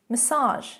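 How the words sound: It is pronounced the American way. "massage in American English"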